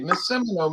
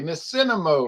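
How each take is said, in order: First: The name has m before n. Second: The name has n before m. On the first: The speaker calls it right. "we'd say" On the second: The speaker calls it wrong. "he could never get it right. He'd always say"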